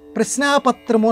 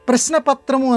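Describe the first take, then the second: First: The vowel after 'prashn' is held long. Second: The vowel after 'prashn' is kept short. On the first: The speaker calls it wrong. "ప్రశ్నాపత్రము అని అనకూడదు" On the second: The speaker calls it right. "ప్రశ్నపత్రము అనాలి. ... అక్కడ దీర్ఘం రాదు"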